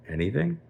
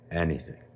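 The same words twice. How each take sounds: First: High rising, incredulous question; questioning king. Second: Said in the usual way. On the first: Acted. King tests how far Shimon's friendship goes, questioning. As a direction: echo it back as a probing question.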